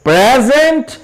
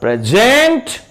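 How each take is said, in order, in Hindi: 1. Stress पहले syllable पर है। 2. स्ट्रेस दूसरे सिलेबल पर है। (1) "प के साउंड पे" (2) "ज के साउंड पे आ रहा है हमारा स्ट्रेस"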